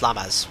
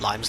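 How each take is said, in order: First: The first vowel sounds like 'ah'. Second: The first vowel sounds like 'eye'. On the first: The speaker calls it right. "That's how I need to pr- pronounce it" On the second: The speaker calls it wrong. "Not Limes"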